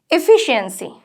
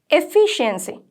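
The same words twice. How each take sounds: The two takes are said the same way.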